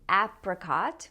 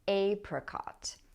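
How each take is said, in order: First: The first vowel sounds like the a in cat. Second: The first vowel sounds like the a in say. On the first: "I say apricot with the a sound as in cat" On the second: "some people pronounce this with a long a"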